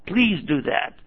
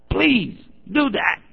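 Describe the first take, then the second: First: Said in the usual way. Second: "Please do that" drawn out slowly, pitch rising high on "do"; slow, emphatic plea. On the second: Shown as a demonstration. Preacher begging the audience to follow up, slow and emphatic. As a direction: stretch "Please do that" and lift "do" high as a pleading request.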